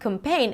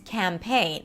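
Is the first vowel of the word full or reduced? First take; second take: reduced; full. First: The first vowel is reduced and short. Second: The first vowel is a full, held A sound. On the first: The speaker calls it wrong. "It's not campaign" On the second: The speaker calls it right. "it's campaign. ... Give it the time that it needs. It's a secondary stress. It's not reduced"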